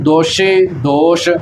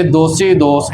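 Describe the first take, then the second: First: Slow "ਦੋਸ਼ੀ ਦੋਸ਼" with sh sounds; sh mispronunciation. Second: "ਦੋਸੀ ਦੋਸ" with plain s sounds; without bindi. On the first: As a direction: turn each s to sh in "ਦੋਸ਼ੀ ਦੋਸ਼". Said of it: "ਪੈਰ ਦੇ ਵਿੱਚ ਬਿੰਦੀ ਨਹੀਂ ਲਾ ਦੇਣੀ". ("ਦੋਸ਼ੀ ਦੋਸ਼" ਬਿੰਦੀ ਲਾ ਕੇ) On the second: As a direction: keep a thin s in "ਦੋਸੀ ਦੋਸ", never sh. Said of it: "ਬਿਨਾਂ ਬਿੰਦੀ ਤੋਂ ਹੀ". ("ਦੋਸੀ ਦੋਸ" ਬਿਨਾਂ ਬਿੰਦੀ) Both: Shown as a demonstration.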